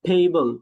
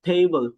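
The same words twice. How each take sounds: Both takes have the same delivery.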